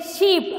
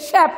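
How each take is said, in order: First: "sheep" with a long ee; long-vowel "sheep" shown as what to avoid; wrong pronunciation. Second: "shep" with a short e; short clear "shep", as in shepherd; correct pronunciation. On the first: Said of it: "You don't say sheep". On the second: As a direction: say "shep" with the vowel of "bed". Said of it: "It is shep". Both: Shown as a demonstration.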